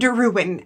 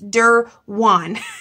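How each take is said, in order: First: The last syllable sounds like 'win'. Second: The last syllable sounds like 'wan'. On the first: The speaker calls it wrong. "not Derwin, as I wanted to pronounce it originally" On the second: The speaker calls it right. "It's Derwan"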